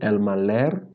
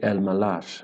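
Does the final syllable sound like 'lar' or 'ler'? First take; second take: ler; lar. First: The last syllable has an 'e' vowel. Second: The last syllable has an 'a' vowel. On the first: The speaker calls it wrong. "instead of saying El Maler" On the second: The speaker calls it right. "it is correct to say El Malar"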